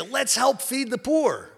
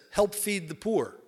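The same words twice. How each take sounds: First: High, slow keen chicken voice; the chicken proposing it, all enthusiasm; eager chicken. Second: Said in the usual way. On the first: Acted. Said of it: "the chicken goes to the pig".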